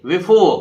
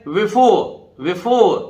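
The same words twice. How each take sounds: First: Before with the final r sounded, the wrong way; wrong take with r. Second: Before ending on "ओ", with no r; silent final r. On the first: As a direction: say before as "बिफोर", r pronounced. (before को "बिफोर", र के साथ, गलत तरीका) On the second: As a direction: say before as "बिफो". (before को "बिफो" बोलें, र नहीं) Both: Shown as a demonstration. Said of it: "before नहीं है".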